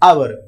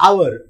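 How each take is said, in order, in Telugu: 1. ఈ పదం నేరుగా అచ్చుతో మొదలవుతుంది. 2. ఈ పదం నేరుగా అచ్చుతో మొదలవుతుంది.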